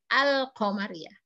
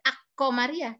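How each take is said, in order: First: The l is pronounced clearly before the q. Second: The l is replaced by the following consonant. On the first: The speaker calls it right. "tapi Al-Qamariyah" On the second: The speaker calls it wrong. "tidak Ak-Qamariyah"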